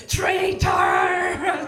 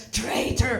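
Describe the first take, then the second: First: Drawn-out mock roar; hammed-up furious yell, stretched long; imitated soldier's scream. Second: Mock accusing call, held back in volume; first, shorter mock yell of an angry soldier; imitated soldier's scream. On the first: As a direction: bellow the accusation after someone fleeing. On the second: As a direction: call it after someone fleeing. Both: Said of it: "Russian soldier screaming in my back".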